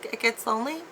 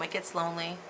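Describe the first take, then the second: First: It is said as a question. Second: It is said as a plain statement.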